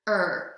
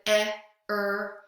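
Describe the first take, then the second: First: It is said as one single sound. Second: It is said as two separate sounds. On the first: The speaker calls it right. "It's just er" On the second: The speaker calls it wrong. "we don't separate it out and pronounce it eh, er"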